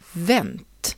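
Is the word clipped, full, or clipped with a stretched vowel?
clipped. The final vowel is dropped, with a short vowel. "vänta blir vänt"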